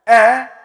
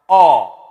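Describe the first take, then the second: First: The vowel is light and thin. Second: The vowel is thick and heavy. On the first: "when it's light" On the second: "when it's thick"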